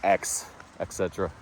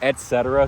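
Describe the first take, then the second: First: The first syllable is pronounced 'ex'. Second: The first syllable is pronounced 'et'. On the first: The speaker calls it wrong. "people just say X, et cetera" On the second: The speaker calls it right. "it's actually et cetera"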